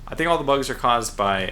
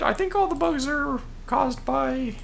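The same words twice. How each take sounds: First: It is said in a normal, natural voice. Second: It is said in an odd, put-on voice.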